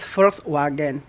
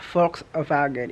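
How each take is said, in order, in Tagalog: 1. Binibigkas ito gaya ng pagbasa ng mga Pilipino. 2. Binibigkas ito sa orihinal na paraang Aleman. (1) "Kung tayo magbasa niya is Volkswagen" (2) "ang tamang pronunciation po talaga niyan is Volkswagen"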